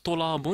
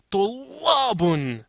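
First: The second-syllable vowel is drawn out long. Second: The second-syllable vowel is compressed and short. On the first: The speaker calls it wrong. "Il ne faut pas dire Tolabun" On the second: The speaker calls it right. "il faut comprimer le la ... mais Tolabun. Comme ça"

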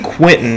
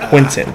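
First: The name is said in a regional accent. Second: The name is said in a standard pronunciation. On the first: This is how the speaker naturally says it. "I say Quentin" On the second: This is how others would say it. "instead of Quentin"

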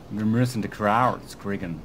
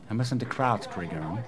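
First: The English words are said in an American accent. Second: The English words are attempted in a British accent.

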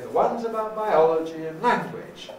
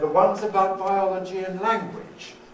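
First: 'Biology' stands out with a pitch change. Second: No word stands out with a pitch change. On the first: "We don't have to say" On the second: "they can always be suppressed as far as the intonation is concerned"

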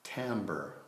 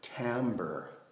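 First: The word sounds like amber with a T. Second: The same.

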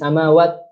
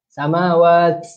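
First: The final t has no breath released after it. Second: The final t releases a large puff of breath. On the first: "dia tak boleh berhenti samawat. Huruf ta tu tak keluar angin sedikit pun, tak boleh" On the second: "jangan lebih-lebih pula samawat. Itu salah"

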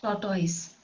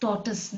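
First: The second syllable sounds like 'toys'. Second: The second syllable sounds like 'tus'. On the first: The speaker calls it wrong. "not tortoise" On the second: The speaker calls it right. "pronounced as tortoise"

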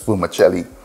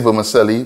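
First: It is said the original Italian way. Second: It is said the everyday local way. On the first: This is the original pronunciation of the word. "the actual pronunciation is vermicelli" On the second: This is how people in the speaker's community say it. "we say vermicelli"

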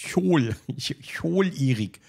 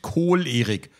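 First: It begins with a soft ch sound. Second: It begins with a hard k sound. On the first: The speaker calls it right. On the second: The speaker calls it wrong. "es ist nicht Kohl-Erik"

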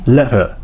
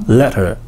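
First: The middle consonant briefly disappears. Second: The same.

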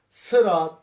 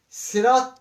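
First: The first s is thick and emphatic. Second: The first s is thin and plain. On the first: The speaker calls it right. "Kalın okuyoruz" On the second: The speaker calls it wrong. "sinle okumuyorum arkadaşlar. Sırat değil"

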